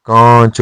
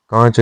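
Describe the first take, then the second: First: कांच long and nasalised; correct form. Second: कांच short, little nasal; incorrect form. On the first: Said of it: "चंद्रबिंदु के साथ". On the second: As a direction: say कांच briefly as "kaach". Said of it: "नहीं होता". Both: Shown as a demonstration.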